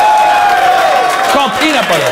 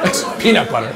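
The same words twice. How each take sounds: First: High, loud and slow, spelling out the obvious; loud, slow exasperation; exasperated. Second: Low, flat, laughing under it; low deadpan. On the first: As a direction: drag out peanut butter in disbelief. Exasperated correction of a rap line. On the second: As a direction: drop it dead low like it's obvious. Repeats with disbelief. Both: Real, not acted.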